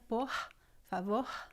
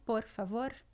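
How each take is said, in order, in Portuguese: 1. O R é feito lá atrás, na garganta. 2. O R é uma batida rápida da língua na frente. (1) "Pode ser na garganta" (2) "Ela pode ser vibrante aqui na frente"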